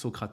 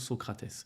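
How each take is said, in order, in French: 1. Le nom se prononce à la française. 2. Le nom se prononce à la brésilienne.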